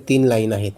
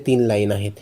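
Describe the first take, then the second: No difference in how they are said.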